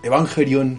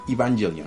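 First: It is said with a Japanese accent. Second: It is said with an American accent.

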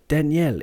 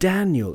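First: Every syllable gets equal stress. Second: The stress falls on the first syllable. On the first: "every syllable is the same" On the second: "with a stress on the first Dan"

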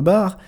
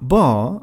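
First: It is said with a French pronunciation. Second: It is said with a British English pronunciation. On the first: The speaker calls it wrong. "le mot bar ne se prononcera pas bar" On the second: The speaker calls it right. "bar en anglais britannique"

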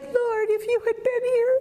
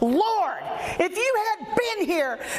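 First: It is said in a meek, timid way. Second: It is said in a bold, confronting way. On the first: The speaker calls it wrong. "I don't think she said it like that" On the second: The speaker calls it right. "She had chutzpah"

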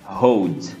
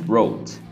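First: The first sound is a breathy h-like sound. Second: The first sound is a growled English r. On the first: The speaker calls it wrong. "o brasileiro acaba falando" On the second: The speaker calls it right. "o correto seria"

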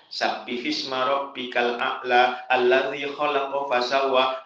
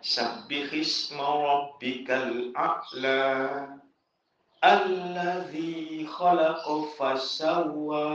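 First: The verse is recited quickly without stopping. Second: The verse is recited slowly with stops. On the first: "Orang yang menggunakan al-hadr" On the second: "mengulang dengan at-tahqiq"

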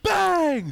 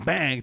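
First: The word is said loudly with strong force. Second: The word is said with ordinary, moderate energy. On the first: It is a tense, high-stakes moment late in the game. "He puts power in that bang" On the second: It is an ordinary moment in the game. "it goes from bang"

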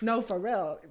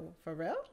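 First: It sounds insistent, like a firm statement. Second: It sounds disbelieving, like a surprised question.

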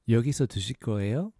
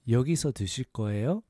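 Both takes have the same delivery.

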